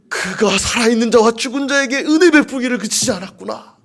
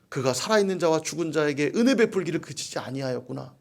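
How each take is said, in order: First: It is read in a tearful, trembling voice. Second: It is read in a plain, ordinary voice.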